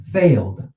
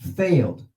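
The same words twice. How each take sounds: First: The word is said as one syllable. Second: The word is said as one syllable.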